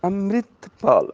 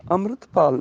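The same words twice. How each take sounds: First: ਅੰਮ੍ਰਿਤਪਾਲ said amritpal, slow and clear; ਅੰਮ੍ਰਿਤਪਾਲ with short i after r, drawn out; correct pronunciation. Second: ਅੰਮ੍ਰਿਤਪਾਲ said amratpal; the incorrect ਅੰਮ੍ਰਿਤਪਾਲ, a in the middle; wrong pronunciation. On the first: Teacher giving his own name ਅੰਮ੍ਰਿਤਪਾਲ correctly, slowly. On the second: Teacher showing how people mispronounce his name ਅੰਮ੍ਰਿਤਪਾਲ. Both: Shown as a demonstration. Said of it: "ਅੰਮ੍ਰਿਤਪਾਲ ਨਹੀਂ".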